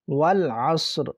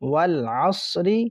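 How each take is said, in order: First: The word ends on a bare final consonant. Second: The word ends with a short final vowel.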